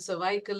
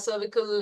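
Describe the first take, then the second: First: It is said the British or Indian way. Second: It is said the American way. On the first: "cervical in India and U K maybe" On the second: "cervical in U S"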